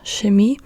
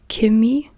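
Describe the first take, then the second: First: The word begins with an sh sound. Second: The word begins with a hard k sound. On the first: This is how northern Germans often say it. "in the north of Germany, you hear Chemie quite often, like sh" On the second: This is how southern Germans often say it. "with a K pronunciation"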